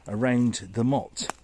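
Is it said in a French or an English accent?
English. It is said in his ordinary English accent.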